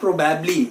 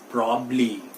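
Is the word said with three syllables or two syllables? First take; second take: three syllables; two syllables. First: It has three syllables with the middle b. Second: It has two syllables, the middle part dropped. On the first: The speaker calls it wrong. "It is not प्रोबेबली" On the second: The speaker calls it right. "जो पहला बी है, वो silent है"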